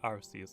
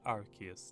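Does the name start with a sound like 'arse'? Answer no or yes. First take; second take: yes; no. First: The first syllable sounds like the word 'arse'. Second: The first syllable does not sound like 'arse'. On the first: This is the old, dropped pronunciation. The speaker calls it wrong. "the reason why they don't use Arceus" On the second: This is the current official pronunciation. The speaker calls it right. "It's actually called Arceus now"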